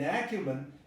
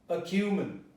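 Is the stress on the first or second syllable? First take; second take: first; second. First: The stress is on the first syllable. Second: The stress is on the second syllable. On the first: The speaker calls it wrong. "If the stress had been acumen, it would have been an a" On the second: The speaker calls it right. "So you say acumen. It transforms into a schwa"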